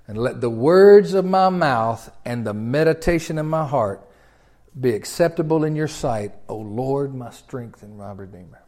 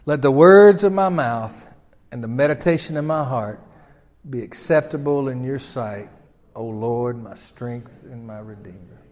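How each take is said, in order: First: Solemn prayer. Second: Prayer recited together. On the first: Acted. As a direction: pray it reverently. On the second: Shown as a demonstration. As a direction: lead the congregation in prayer. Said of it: "Say it with me".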